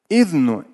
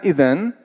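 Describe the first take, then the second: First: The word ends with a 'nu' sound. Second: The word ends with an 'an' sound. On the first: "здесь оба варианта можно почитать" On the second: "В данном случае идэн лучше прочитаю"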